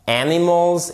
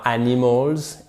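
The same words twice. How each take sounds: First: "animals" stressed on its first syllable. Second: "animals" said with the first-syllable stress lost; mispronounced example. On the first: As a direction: lean on the opening a of "animals". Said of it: "vous mettez bien l'accent tonique ici". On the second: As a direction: demonstrate a faulty "animals", its opening syllable unstressed. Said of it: "et pas animals". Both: Shown as a demonstration.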